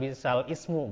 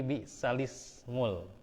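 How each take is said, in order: First: The word 'ismu' starts separately with a glottal stop. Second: The lam runs straight into 'ismu' without a break. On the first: The speaker calls it wrong. "Bukan bi'sal ismu" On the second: The speaker calls it right. "tapi bi'salismul"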